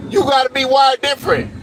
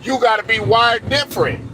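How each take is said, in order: First: Higher, punched You gotta be wired different; emphatic repeat. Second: Said in the usual way. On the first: Shown as a demonstration. Driving the point home to listeners, pushed higher and harder. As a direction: hammer the line home the second time. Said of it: "repeated for emphasis". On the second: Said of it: "repeats it harder".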